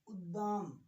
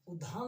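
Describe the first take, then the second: First: The middle d sound is plain, unaspirated. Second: The middle d sound is breathy, aspirated. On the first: The speaker calls it right. "दद ये दो दे" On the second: The speaker calls it wrong. "उद्धाम नहीं होगा"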